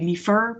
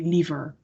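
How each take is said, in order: First: The middle consonant is a voiceless F sound. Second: The middle consonant is a voiced V sound. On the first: The speaker calls it wrong. "We wouldn't say liever" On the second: The speaker calls it right. "with a V instead of an F"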